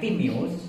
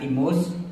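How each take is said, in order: First: The name is said with three syllables. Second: The name is said with two syllables. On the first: The speaker calls it right. "anaknya Timeus" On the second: The speaker calls it wrong. "bukan Timus"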